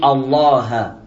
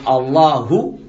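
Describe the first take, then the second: First: The word ends on the h consonant. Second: The word ends with a final u vowel. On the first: The speaker calls it wrong. "il dit Allah" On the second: The speaker calls it right. "Au lieu de dire Allahu"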